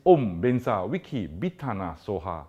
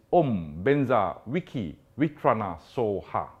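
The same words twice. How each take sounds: First: "Bitana" with a firm B, three syllables "bee-TAH-nah". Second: "Vitrana" sung out with a clear V, like "vee-TRAH-nah". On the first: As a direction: say "Om Benza Wiki Bitana Soha", with a crisp B in "Bitana". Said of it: "Bitana with a B". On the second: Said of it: "Vitrana with a W". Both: Shown as a demonstration.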